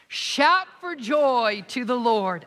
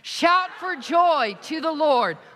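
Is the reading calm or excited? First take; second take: calm; excited. First: It is read in a calm, low-energy way. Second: It is read in a loud, excited way. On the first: The speaker calls it wrong. "you can't say it like that" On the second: The speaker calls it right. "I'm so excited"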